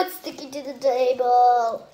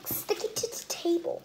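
First: Said in the usual way. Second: Whispering sticking to the table softly; whispered. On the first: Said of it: "repeated in a whisper". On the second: Shown as a demonstration. Kid whispers to viewers about sticky slime. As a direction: breathe it like a secret. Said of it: "repeated after plain take".

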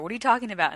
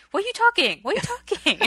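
First: Said in the usual way. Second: High, loud imitation Korean accent; fake Korean accent. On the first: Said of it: "And they just say". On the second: Dad questioning his kids, high mock Korean accent. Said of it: "he's got his fake Korean accent".

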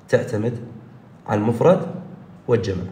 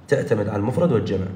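First: تعتمد، على المفرد، والجمع with pauses between; slow, word by word. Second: Said in the usual way. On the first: Shown as a demonstration. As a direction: spell it out in chunks for the class. (مقطّعة كلمة كلمة للتوضيح) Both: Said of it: "تتذكر كلامي".

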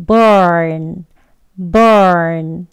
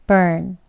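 First: "burn" said loud and long; strong form burn. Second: Just a light "burn"; weak form burn. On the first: Teacher recapping the strong form, loud and long. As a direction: hold "burn" with full strength. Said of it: "강형 발음이었죠". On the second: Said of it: "약형은". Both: Shown as a demonstration.

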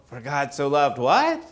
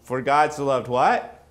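First: Same rising "what?" pressing the congregation again; coaxing the answer out of the room; repeated prompt. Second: Rising "what?" to draw the congregation out; inviting call to the audience; questioning prompt. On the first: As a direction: ask "what?" once more, waiting for their reply. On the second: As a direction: lift "what?" up like a question to the crowd. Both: Shown as a demonstration.

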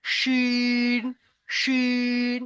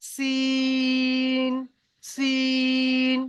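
First: শিন with a full, thick শ; heavy sh sound. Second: সিন with a light, thin স and long held vowel; light s sound. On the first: Teacher showing heavy শিন against light সিন. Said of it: "শিনের উচ্চারণ হবে মোটা ভাবে". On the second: Teacher showing light সিন against heavy শিন. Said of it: "সিনের উচ্চারণ হবে হালকা ভাবে". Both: Shown as a demonstration.

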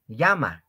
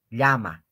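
First: "llama" said with a plain y sound, like "yama"; wrong llama. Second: "Llama" with a palatal ll, the lli sound; correct llama. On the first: Teacher imitates students' common mistake, a plain y sound. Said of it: "En vez de decir llama". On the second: Teacher gives students the right ll sound, careful. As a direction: say "Llama" with the tongue flat against the palate. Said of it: "No digo llama". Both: Shown as a demonstration.

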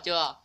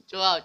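First: Said in the usual way. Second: Teasing loud. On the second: Real, not acted.

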